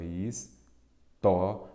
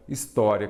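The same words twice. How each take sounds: First: "história" very slowly, split his-tó-ria with gaps; syllable by syllable. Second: Said in the usual way. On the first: Shown as a demonstration. Teacher separating the word for students, "história" syllable by syllable. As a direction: break "história" into separate syllables, stretching each one. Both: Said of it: "vamos separar em sílaba".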